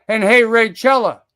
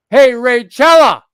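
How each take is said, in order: First: Said in the usual way. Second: Louder, higher and slower on the name; loud call-out. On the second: Real, not acted. Streamer calling out Raychella on stream, loud slow call-out. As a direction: call her out by name, dragging it.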